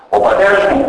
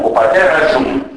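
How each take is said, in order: First: Said in the usual way. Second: "ο πατέρας ζουν" as u pateras-zum; dialect pronoun ending. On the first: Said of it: "ανάπτυξη ενός νη σε αντωνυμικούς τύπους". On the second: Shown as a demonstration. Lecturer showing Roumlouki dialect, "ο πατέρας ζουν" run together with z. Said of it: "Ο δικός μου ακούγεται ουθκός ζουν".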